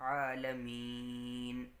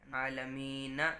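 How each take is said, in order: First: The word ends on a consonant with no vowel. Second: The word ends with a final vowel sound. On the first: The speaker calls it right. "बल्कि आलमीन" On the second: The speaker calls it wrong. "आलमीना नहीं पढ़ेंगे"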